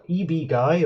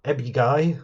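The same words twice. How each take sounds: First: "E B Guy" with E and B as separate letters; "E B Guy" read as two initials and a word; spelled-out initials. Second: "Ebby Guy" with the letters run into one word; "Ebby Guy", Ebby rhyming with Debbie; initials as word. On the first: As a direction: say E, then B, as letter names in "E B Guy". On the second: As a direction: say "Ebby" as a two-syllable name, not letters. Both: Shown as a demonstration. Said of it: "I don't know how you say his screen name".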